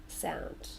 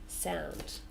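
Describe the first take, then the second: Both takes have the same delivery.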